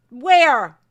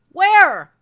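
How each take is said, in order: First: Sharp, much louder demand; angry shout. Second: Higher and even louder, pushing harder; angrier shout. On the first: Creator shouting at YouTube over demonetized video, angry. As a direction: yell the question at them. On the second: Creator repeats demand at YouTube, angrier and higher. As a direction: hit it harder the second time. Angry rant at YouTube ad ruling. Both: Real, not acted.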